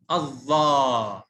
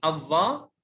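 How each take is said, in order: First: الظا with the final aa drawn out slowly; long vowel. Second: Said in the usual way. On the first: Shown as a demonstration. Teacher showing alif lengthening to a pupil, الظا stretched long. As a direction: hold the alif at the end of الظا. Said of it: "مع مد الألف". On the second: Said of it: "هنا مع مد الألف".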